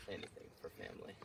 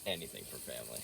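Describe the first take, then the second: First: Mock Dom Toretto line. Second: Low gruff solemn delivery; deep movie hero line. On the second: Pretend. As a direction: say it like a tough-guy movie hero. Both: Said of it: "Say it one more time".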